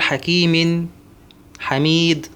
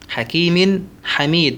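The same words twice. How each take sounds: First: There is a break between the two words. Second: The two words run on without a break. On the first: The speaker calls it wrong. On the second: The speaker calls it right.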